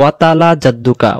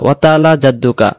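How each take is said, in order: Both takes have the same delivery.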